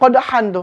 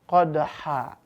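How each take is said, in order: First: The word ends with an n sound. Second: The word ends in a long vowel. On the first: This is how it is written. "Kan tulisannya qadhan tuh" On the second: The reciter stops at the end of the verse. "Maka dia dibaca qad qadha"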